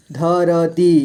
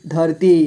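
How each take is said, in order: First: धरती as ध, र, ती; letter by letter. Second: Said in the usual way. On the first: Shown as a demonstration. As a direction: give र its own vowel in धरती. (धरती को तोड़कर: ध, र, ती) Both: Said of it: "थोड़ा फास्ट पढ़ेंगे".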